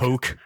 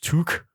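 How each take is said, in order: First: The vowel sounds like the one in goat. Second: The vowel sounds like the one in foot. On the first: The speaker calls it wrong. "my pronunciation of" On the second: The speaker calls it right. "which apparently is in fact took"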